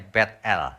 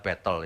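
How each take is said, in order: First: The name is said in the original Hebrew way. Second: The name is said with an Indonesian accent. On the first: "sebenarnya teks aslinya Bet-El" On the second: "karena logat Indonesia Bethel"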